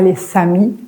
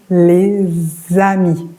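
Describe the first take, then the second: First: The words are linked with a hissed s sound. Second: The words are linked with a voiced z sound. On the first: The speaker calls it wrong. "Pas les samis" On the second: The speaker calls it right. "On dit les amis"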